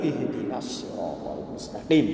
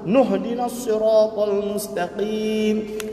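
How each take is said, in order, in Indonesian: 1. Dimulai dengan 'i' yang jelas setelah jeda. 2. Dimulai dengan 'n' yang tersambung dari kata sebelumnya. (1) "kalau dia berhenti baru ihdinas siratal mustaqim" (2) "Kalau dia sambung kena diam hamzah tersebut"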